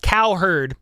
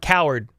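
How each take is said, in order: First: The name sounds like cow plus herd. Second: The name sounds like the word coward. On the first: The speaker calls it right. "it's Cowherd" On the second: The speaker calls it wrong. "I kind of pronounce it Coward sometimes"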